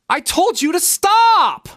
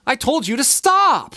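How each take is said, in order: First: It is said in an exaggerated way. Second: It is said in a natural way.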